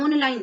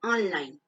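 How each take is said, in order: First: ऑनलाइन as "ohn-line"; ऑनलाइन read with o as spelt; wrong closed o. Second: ऑनलाइन as "awn-line", pitched lower; ऑनलाइन with vowel between aa and o; correct open vowel. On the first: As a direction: say ऑनलाइन with a rounded long o. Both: Shown as a demonstration. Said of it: "उच्चारण ऑनलाइन नहीं".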